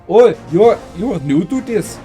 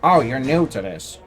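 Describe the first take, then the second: First: It is said in an attempted Indian accent. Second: It is said in the speaker's plain voice.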